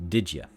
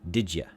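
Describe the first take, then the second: No difference in how they are said.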